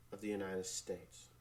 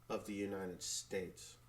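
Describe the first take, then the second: No difference in how they are said.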